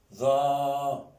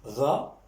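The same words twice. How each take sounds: First: "Ra" with the a held long and level; long vowel. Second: "Ra" with a brief a, rising; short vowel. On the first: Teacher reading out the syllables, "Ra" drawn out. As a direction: sustain the a of "Ra" on one note. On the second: Teacher reading out the syllables, "Ra" kept short. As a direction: say "Ra" short, lifting at the end. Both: Shown as a demonstration. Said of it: "Je lis".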